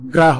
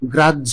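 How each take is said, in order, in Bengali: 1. এটি সাধারণ হ-ধ্বনিতে শেষ হয়। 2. এটি দ্বিত্ব ঝ-ধ্বনিতে শেষ হয়। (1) "এগুলো শুদ্ধ উচ্চারণ নয়" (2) "শুদ্ধ উচ্চারণ আরো একবার বলে দিচ্ছি"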